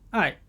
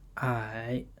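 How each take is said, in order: First: The pitch falls sharply from high to low. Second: The pitch dips low, then rises.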